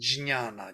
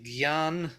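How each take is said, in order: First: The word begins with a 'jn' cluster. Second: The word begins with a 'gy' sound. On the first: This is the original Sanskrit form. The speaker calls it right. "but it is jnana" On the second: This is how Hindi speakers say it. The speaker calls it wrong. "In uh, Hindi, they will say gyan"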